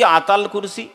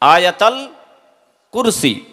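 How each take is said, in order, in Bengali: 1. প্রথম শব্দটি দুই শব্দাংশে সংক্ষেপ করা হয়। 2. প্রথম শব্দটি তিনটি শব্দাংশই রাখে। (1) "কি বলে আতাল কুরসি" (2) "আসল হচ্ছে আয়াতাল কুরসি"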